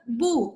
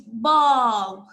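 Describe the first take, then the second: First: The final L and B sounds are dropped. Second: The final L and B sounds are pronounced. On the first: The speaker calls it wrong. "It's not boo" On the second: The speaker calls it right. "it's bulb"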